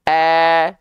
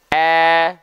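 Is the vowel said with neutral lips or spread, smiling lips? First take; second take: spread; spread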